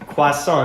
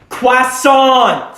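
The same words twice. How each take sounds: First: The word is said at normal, quiet volume. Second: The word is said loudly, almost shouted.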